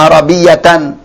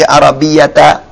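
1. Kata ini berakhir dengan akhiran -tan penuh. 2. Kata ini berakhir dengan -ta dengan vokal pendek. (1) "Walaupun dia tanwin fathah" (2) "tidak biasa dibaca seperti Arabiyata"

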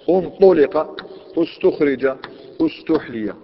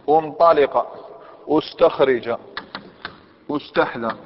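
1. الحرف الثالث من كل فعل يحمل ضمة. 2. الحرف الثالث من كل فعل لا يحمل ضمة. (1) "نضم الحرف الثالث" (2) "هذا لا يقال"

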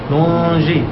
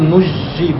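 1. تبقى النون أنفية قبل الجيم. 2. تُدغم النون كلها في جيم مشددة. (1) "فيها إخفاء ولا تضغم" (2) "لا نقول نجي بالإضغام"

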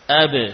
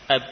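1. Huruf b terakhir dilepas dengan pantulan singkat yang bergema. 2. Huruf b terakhir ditahan tertutup dan berhenti seketika. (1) "Mudah ketika kita mendatangkan sifat qalqalah" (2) "Kalau kita mengucapkan ba sukun seperti tadi"

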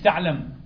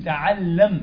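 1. صوت l مفرد وقصير. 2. صوت l مضعّف ومُطوّل. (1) "مش تعلم" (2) "تشديد اللام وسكون على الميم"

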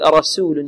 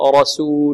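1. السين مرققة ترقيقاً مبالغاً فيه. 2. السين مرققة بشكل معتدل. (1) "ولا نبالغ في ترقيق السين ... خطأ" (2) "الراء مفخمة والسين ماذا؟ مرققة"

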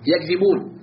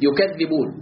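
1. الحرف الأوسط غير مشدد وقصير. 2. الحرف الأوسط مشدد ويُمد طويلاً. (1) "وبالتخفيف ما هي بالتخفيف؟" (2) "القراءة التي أشرحها بالتشديد"

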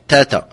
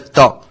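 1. صوت التاء خفيف ورقيق. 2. صوت التاء ثقيل وممتلئ. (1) "يعني تاء مرقة" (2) "وإذا كانت مجاورة لحرف مستعلين فتفخم"

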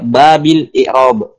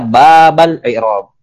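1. Kata bab diakhiri dengan vokal i. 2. Kata bab diakhiri dengan vokal a. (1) "Wa yasihu qira'atuhu bil jar" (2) "Dibaca nasab sebagai maf'ul bihi dari fi'il yang mahdzuf"

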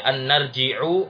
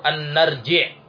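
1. Kata an-narji'a diakhiri dengan vokal pendek u. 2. Kata an-narji'a tidak diakhiri dengan vokal. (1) "Tidak boleh dibaca" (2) "Tidak boleh dibaca"

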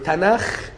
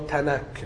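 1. تنتهي الكلمة بصوت kh الخشن. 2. تنتهي الكلمة بصوت k البسيط. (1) "اليهود بينطقوه تناخ" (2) "الأجانب ما بيعرفوش ينطقوا الخاء فبينطقوا كاف"

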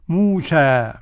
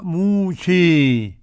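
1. الحركة الأخيرة صوت 'a' مفتوح. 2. الحركة الأخيرة ممالة تماما نحو 'e'. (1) "الفتح" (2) "بالإمالة الكبرى"

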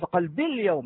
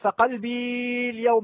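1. الحركة الأخيرة في qalbi تُقطع قصيرة. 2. الحركة الأخيرة في qalbi تُمَدّ طويلة. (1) "حتى هذه الياء التي في قلبي تحذف" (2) "هل تقول فقلبي اليوم؟ لا، خطأ"

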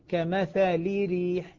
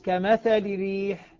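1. اللام تحتفظ بكسرة كاملة قبل الراء. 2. اللام تحتفظ فقط بكسرة قصيرة وخفيفة. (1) "لو أني نطقت بها كسرة كاملة سأقول كمثل ريح" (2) "في الاختلاس كمثل ريح"

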